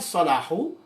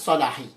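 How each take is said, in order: First: The word ends with a u vowel. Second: The word ends with an i vowel. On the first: "Bukan Salahu" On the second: "bukan Salahi"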